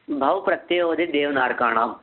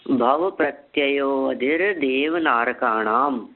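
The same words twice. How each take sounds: First: Said in the usual way. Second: The whole sutra drawn out, word by word; very slow recitation. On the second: Shown as a demonstration. Teacher reciting the full sutra slowly for memorising. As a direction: chant it slowly so it can be memorised. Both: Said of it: "देखिए बहुत धीरे धीरे बोलता हूँ".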